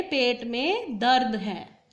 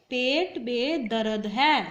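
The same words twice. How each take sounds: First: दर्द as one syllable, "dard"; correct दर्द. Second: दर्द stretched into two syllables, "da-rad"; mispronounced दर्द. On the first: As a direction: run र straight into द in दर्द, no vowel between. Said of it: "अब इसका सही क्या है?". (दर्द में र और द जोड़कर बोलना) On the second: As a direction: slip an extra vowel into दर्द, saying "darad". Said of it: "दर्द गलत होता है". (दर्द को गलत ढंग से "दरद" बोलना) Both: Shown as a demonstration.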